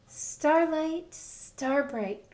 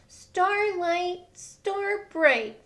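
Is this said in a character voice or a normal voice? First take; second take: normal; character. First: It is said in the reader's ordinary voice. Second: It is said in a put-on character voice. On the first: The speaker calls it wrong. "he didn't say it like that" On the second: The speaker calls it right. "in his voice"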